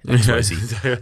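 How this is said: The last letter is said the American way.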